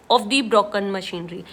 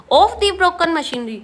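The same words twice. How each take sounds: First: Each word read slowly: "of the broken machinery"; slow careful reading. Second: Said in the usual way. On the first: Shown as a demonstration. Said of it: "Of the broken machinery तो गलत हो जाएगा". (धीमी गति में "of the broken machinery" पढ़ना) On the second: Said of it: "तो गलत हो जाएगा".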